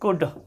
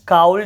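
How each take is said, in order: First: The L sound is silent. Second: The L sound is pronounced. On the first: The speaker calls it right. "एल जो है वो silent हो रहा है" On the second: The speaker calls it wrong. "इसको काउल्ड नहीं पढ़ना"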